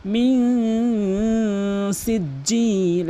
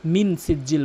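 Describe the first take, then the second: First: মিন সিজ্জিল with the n hidden in a long nasal hum; long-drawn nasal মিন সিজ্জিল; ikhfa ghunnah. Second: মিন সিজ্জিল with a short, clear n; unstretched মিন সিজ্জিল; common mispronunciation. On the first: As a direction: slowly chant মিন সিজ্জিল, holding the nasal. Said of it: "ইকফা গুন্না রয়েছে". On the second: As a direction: say মিন সিজ্জিল with no nasal hold. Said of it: "অধিকাংশ লোক". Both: Shown as a demonstration.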